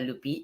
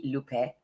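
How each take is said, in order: First: Lupi said LOO-pee, ending in "ee"; mispronounced name. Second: Lupe said LOO-peh, ending in "eh"; corrected pronunciation. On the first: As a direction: say Lupi with a final "ee" sound. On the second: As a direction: say Lupe with a final open "e", not "ee". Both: Shown as a demonstration. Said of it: "My name is pronounced Lupe, not Lupi".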